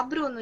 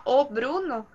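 First: Said in the usual way. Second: "o" set clearly before "Bruno"; stress on article "o". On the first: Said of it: "você só fala". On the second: Shown as a demonstration. Teacher contrasting languages for a student, stressed "o". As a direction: make the article "o" audible. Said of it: "se você fala".

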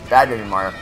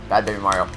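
Both takes have the same delivery.

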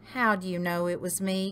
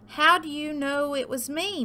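First: Quick, understated groan; a touch of groaning, hurried; mild groan. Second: High, lightly moaned complaint; moaning. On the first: Turkey found out by Pig, quick mild groan. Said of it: "groaned Turkey". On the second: Turkey found out by cow, high moan. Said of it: "moaned Turkey". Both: A narrator's reading.

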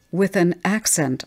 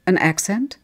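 First: Quick objection, falling at the end; abrupt, emphatic interjection; blurted out. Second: Put-on "accent" lifted into a question; puzzled echo question. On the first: A narrator's reading. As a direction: blurt it as a correction. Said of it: "I blurted out". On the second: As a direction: echo "An accent?" with a rising end. Husband queries the blurted word.

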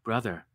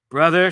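First: Softer, hushed and confiding; secret whisper. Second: Louder, firm preaching call. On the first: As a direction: lean in and say it low, like a secret. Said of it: "with her secret whisper". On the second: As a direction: call him out like a street preacher. Preacher woman addresses him. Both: Acted.

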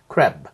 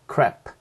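First: "crab" 끝소리 b; final b. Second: "crap" closing on a hard unvoiced p; "crap" 끝소리 p; final p. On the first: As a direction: let the b of "crab" sound at the end. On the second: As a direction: end "crap" with a popped p. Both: Shown as a demonstration. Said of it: "좀 다릅니다".

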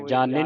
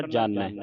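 First: ਜਾਣੈ ending in a plain -e, jaane; wrong reading. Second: ਜਾਣੈ lower, ending in open -ai; correct ending. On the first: Teacher warning the student off a misreading, wrong ending. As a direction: say ਜਾਣੈ with the mistaken -e. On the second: Teacher correcting the reading for the student, correct ending. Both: Shown as a demonstration. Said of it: "ਜਾਣੈ ਨਹੀਂ ਪੜ੍ਹਨਾ".

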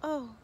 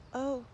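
First: Sighed oh. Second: Said in the usual way. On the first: Acted. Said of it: "sighed the ugly truckling". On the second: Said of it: "said the ugly truckling".

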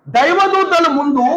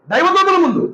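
First: దైవదూతల drawn out very slowly, then falling; slow, stretched phrase. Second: Said in the usual way. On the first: Shown as a demonstration. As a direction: dwell on దైవదూతల, spacing each syllable slowly. (దైవదూతల ను చాలా నెమ్మదిగా సాగదీసి చెప్పడం)

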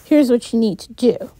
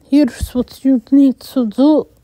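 First: Said in the usual way. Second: Put-on light Hispanic accent on "Here's what you need to do"; a hint of a Hispanic accent, louder. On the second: A narrator's reading. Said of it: "He had a thick Hispanic accent".

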